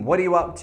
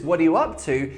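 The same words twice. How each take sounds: First: It is said in a suspicious, doubtful tone. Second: It is said in a happy, friendly tone. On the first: The asker suspects something is being hidden. "It's a bit more suspicious" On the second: It is a friendly question about someone's activity. "it could sound happy, friendly"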